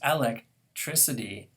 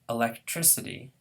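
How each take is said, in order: First: The first syllable carries the stress. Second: The first syllable is unstressed. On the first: "now that this first syllable is stressed" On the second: "There are speakers of English, though, who prefer"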